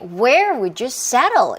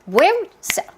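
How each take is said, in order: First: It is said slowly, with every word clear. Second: It is said very fast, with small words swallowed. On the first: "이렇게 천천히" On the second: "정말 정말 빠르게 말하는 원어민을 만난다면"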